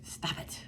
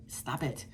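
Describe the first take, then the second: First: "Stop it" whispered with no voice, much softer. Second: Quiet firm stop it, softer; soft scolding. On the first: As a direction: hiss it out as a final warning. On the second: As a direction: scold them under your breath. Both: Retold or imitated. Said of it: "I'm like".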